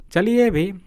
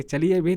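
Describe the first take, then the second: First: Impatient, louder and higher push to leave; irritated urging. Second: Said in the usual way. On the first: Acted. Narrator, bored on the cold bench, urges his friend: irritated. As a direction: snap at the friend to get going, fed up. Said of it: "मैंने खिसिया कर कहा". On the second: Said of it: "इन्होंने कहा कि".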